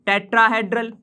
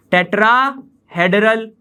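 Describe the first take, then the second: First: Said in the usual way. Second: tetrahedral, said slowly in two separated parts; slow dictation. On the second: Shown as a demonstration. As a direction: draw out tetrahedral with a break in the middle. Teacher repeats term for students. (Tetrahedral को धीरे, तोड़कर बोलें)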